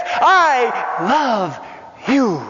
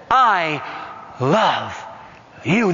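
First: Preacher declaring the Father's love; fervent I love you. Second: Tender, slow I love you. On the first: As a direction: proclaim the Father's love with fire. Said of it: "And he says". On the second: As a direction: say it like a gentle whisper of comfort. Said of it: "the Holy Spirit says". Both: Retold or imitated.

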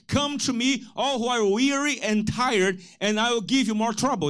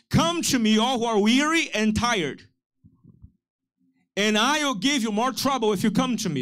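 First: Deliberately wrong Jesus quote, a bit higher; mock misquote. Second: Misquote it to get them to correct you; mock misquote. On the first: Pastor teasing the congregation with a wrong verse, mock-serious. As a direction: twist the scripture on purpose for a laugh. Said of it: "Is that what he said?". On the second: Pastor jokingly misquotes Jesus to the church, playful. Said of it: "No, he said". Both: Shown as a demonstration.

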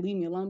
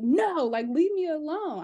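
First: Said in the usual way. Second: Put-on whiny toddler refusal. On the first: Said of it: "she's not saying". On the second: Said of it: "I mean, she's not saying, "Leave me alone".

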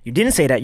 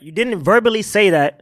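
First: Said in the usual way. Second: Verbally slowed and leaned on; stress on verbally. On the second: Shown as a demonstration. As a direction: drag out verbally to make the point.

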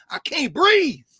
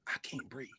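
First: High, loud, anguished cry of the words. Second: Barely audible, much softer hush; hushed repeat. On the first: Preaching to the room, a loud anguished cry. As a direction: cry it out like a dying plea. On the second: Repeating the dying words to the room, a hushed near-whisper. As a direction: let the words die away to almost nothing. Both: Acted.

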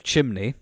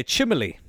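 First: Said in the usual way. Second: "chimney" with an extra syllable, CHIM-uh-lee; mother's pronunciation. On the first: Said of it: "instead of". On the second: Retold or imitated. Host quoting mother's word, "chimney" as CHIM-uh-lee. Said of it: "My mother, God love her".

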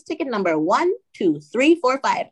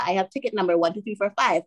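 First: Slow, higher, digit-by-digit ticket number; deliberate repeat. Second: Said in the usual way. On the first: Retold or imitated. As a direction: repeat it slowly for someone who missed it. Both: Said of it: "can you repeat that".

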